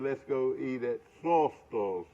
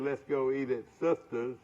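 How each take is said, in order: First: The last word is said with a Southern drawl. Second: The last word is said in a plain accent. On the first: "old Southern girls uh, would say Slaughter's?" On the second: "Some people say"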